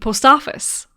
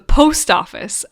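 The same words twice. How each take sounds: First: The stress falls on the word office. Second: The stress falls on the word post. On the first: This is how many Irish people say it. "a lot of Irish people say the post office" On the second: This is how most people say it. "instead of the post office"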